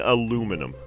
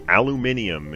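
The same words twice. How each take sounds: First: Aluminum said North American style, a-LOO-mi-num; North American pronunciation. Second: Aluminium said the UK way, al-yoo-MIN-ee-um; British pronunciation. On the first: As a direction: say "aluminum" with four syllables, stress on LOO. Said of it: "I'm saying aluminum". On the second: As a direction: say "aluminium" with the extra syllable, stress on MIN. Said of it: "you guys say aluminium in the U K". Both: Shown as a demonstration.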